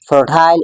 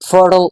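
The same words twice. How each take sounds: First: It is said in a British accent. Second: It is said in an American accent.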